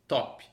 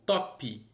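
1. A palavra termina no som de p. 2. A palavra termina com uma vogal i acrescentada.

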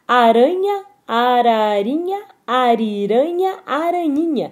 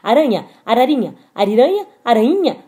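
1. As palavras são ditas em ritmo normal. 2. As palavras são ditas muito rápido. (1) "Vou tentar uma curtinha" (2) "Será que a gente consegue falar isso bem rápido?"

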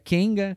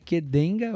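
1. O nome é dito junto, sem o d. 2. O nome é dito devagar, em partes separadas. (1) "se juntar Qdenga e tira o D, vira Kenga" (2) "Se você falar pausado"

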